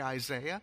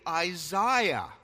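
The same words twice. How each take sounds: First: The 'ai' letters are said the usual way. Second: The 'ai' letters are said the other way. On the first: The speaker calls it wrong. "we mispronounce it when we say Isaiah" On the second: The speaker calls it right. "It's really Isaiah. And that's how we pronounce those letters, A-I, in every other place"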